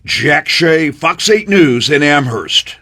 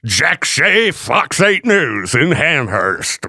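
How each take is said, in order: First: Plain. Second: Slow, drawn-out reporter sign-off; news guy voice. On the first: Real, not acted. Reporter sign-off in clip. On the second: Retold or imitated. Host mocking the reporter with a slow news-guy sign-off. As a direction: mimic a TV reporter signing off. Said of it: "News guy voice".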